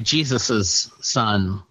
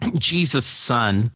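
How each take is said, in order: First: The possessive adds an extra syllable. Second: The possessive adds no extra syllable. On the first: The speaker calls it right. "I say" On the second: The speaker calls it wrong. "Some people might pronounce that"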